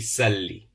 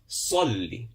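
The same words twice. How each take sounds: First: The s is plain without lip rounding. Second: The s is emphatic with rounded lips. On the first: The speaker calls it wrong. "It won't be Salli" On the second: The speaker calls it right. "we pronounce with a round mouth"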